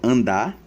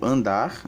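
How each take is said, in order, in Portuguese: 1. A palavra termina em vogal, sem R. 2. A palavra termina com o som de R. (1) "retirado o morfema R ... então fica só andar" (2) "nós temos o verbo andar"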